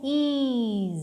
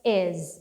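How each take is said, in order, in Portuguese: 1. A vogal é longa e arrastada. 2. A vogal é curta e seca. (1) "E não é também is, não" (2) "é um izinho curto. Então fica is"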